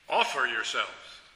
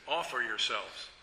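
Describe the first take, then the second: First: It is said forcefully, with a louder voice. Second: It is said calmly, at normal volume.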